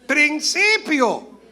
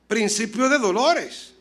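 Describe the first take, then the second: First: "Principio" stretched very slow and loud; "Principio" said slowly, high and loud; drawn-out answer. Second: "Principio de dolores" spaced slowly; "Principio de dolores" drawn out and deliberate; slow emphasis. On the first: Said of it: "Esto será, ¿qué?". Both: Shown as a demonstration.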